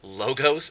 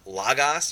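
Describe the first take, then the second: First: The o vowels sound like a long 'oh'. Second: The o vowels sound like an open 'ah'. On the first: "with the long O sound of O" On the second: "and not ah"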